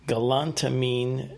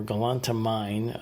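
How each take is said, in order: First: Galantamine with the last syllable rhyming with "seen"; ending said as "meen". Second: Galantamine with the last syllable rhyming with "fine"; ending said as "mine". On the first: Podcaster unsure of a supplement's name, Galantamine ending in "meen". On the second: Podcaster offering another pronunciation, galantamine ending in "mine". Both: Shown as a demonstration. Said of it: "don't know how to pronounce it".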